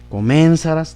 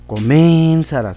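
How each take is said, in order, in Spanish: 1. La sílaba tónica es la tercera, sa. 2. La sílaba tónica es la segunda, men. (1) "tampoco quedaría en la sa" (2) "la sílaba men, ... tampoco"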